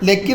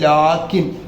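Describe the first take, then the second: First: The first vowel is short. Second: The first vowel is drawn out long. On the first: The speaker calls it wrong. "ലക്കിൻ എന്ന് പറയാൻ പാടില്ല" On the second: The speaker calls it right. "നീട്ടിയാണ് പറയേണ്ടത്"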